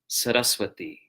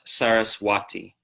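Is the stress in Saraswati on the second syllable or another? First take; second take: second; another. First: The stress is on the second syllable. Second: The stress is not on the second syllable. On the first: The speaker calls it right. "accent on the third to last syllable" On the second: The speaker calls it wrong. "not Saraswati"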